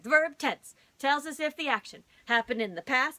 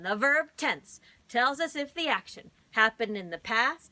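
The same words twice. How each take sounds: First: It is said at a fast speed. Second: It is said at a normal speed.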